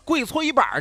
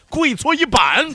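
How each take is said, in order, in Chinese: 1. 最后一个音节带卷舌的儿化音。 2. 最后一个音节不带卷舌的儿化音。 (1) "就跟开玩笑似的" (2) "就好像虎头铡伺候"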